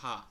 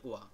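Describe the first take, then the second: First: The syllable is said as ha. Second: The syllable is said as wa. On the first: The character is used as an ordinary syllable. "এখানে উচ্চারণ হয়েছে হা" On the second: The character is used as a particle. "যখন পার্টিকেল হিসেবে ব্যবহৃত হয় তখন এর উচ্চারণ হয় ওয়া"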